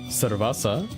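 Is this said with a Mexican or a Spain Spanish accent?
Mexican. The c and z are said as s sounds.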